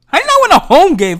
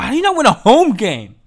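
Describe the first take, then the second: First: Much higher and louder, punching 'not'; real fan outrage, 'not' shouted up high; outraged shout. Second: Frustrated first take, 'not' stressed; exasperated question. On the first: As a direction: yell it the second time in disbelief. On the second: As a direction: stress on 'not', moderately raised. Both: Real, not acted. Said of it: "repeated louder".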